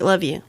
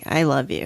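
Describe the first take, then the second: First: It is a quick, casual throwaway goodbye. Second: It is slow, sincere and heartfelt.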